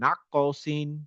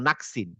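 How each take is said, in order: First: The k sound is released with a small bounce. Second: The k sound is held plainly without a bounce. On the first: "কটার উপরে শকুনটা একটু, একটু বাউন্স হয়ে থেমে মতো যাবে" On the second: "কাফের উপরে শকুন হলে আমরা বলতাম নাকসিন"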